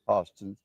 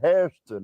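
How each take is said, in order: First: The first vowel sounds like 'oh'. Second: The first vowel sounds like 'air'. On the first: It is the local family way of saying the name. "My mother used to say Hostin" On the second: It is the northern way of saying the name. "we said Hairston up there, you see, like Yankees"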